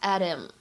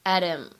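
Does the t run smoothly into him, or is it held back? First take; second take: runs smoothly; runs smoothly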